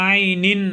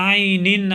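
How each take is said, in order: No difference in how they are said.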